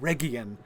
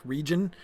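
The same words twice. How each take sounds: First: Region with a hard G as in go. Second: Said in the usual way. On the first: Shown as a demonstration. Correcting the Tolkien name, Region with a hard G. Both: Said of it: "It's a hard G".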